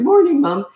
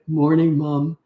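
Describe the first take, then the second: First: It is said in a high, boyish voice. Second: It is said in a deep, manly voice.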